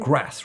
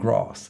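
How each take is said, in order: First: It is said with a northern English accent. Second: It is said with a southern English accent.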